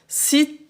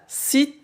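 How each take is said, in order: The two takes are said the same way.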